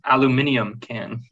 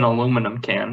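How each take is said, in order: First: The word is said the British way. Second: The word is said the North American way.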